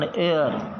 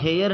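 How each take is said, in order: First: The word starts with a vowel sound. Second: The word starts with an h sound. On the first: The speaker calls it right. "एयर है इसका सही उच्चारण" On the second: The speaker calls it wrong. "ये हेयर नहीं है"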